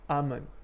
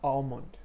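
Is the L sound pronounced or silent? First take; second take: silent; pronounced. First: The L sound is silent. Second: The L sound is pronounced. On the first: The speaker calls it right. "You say almond" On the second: The speaker calls it wrong. "You don't say almond. You don't pronounce the L"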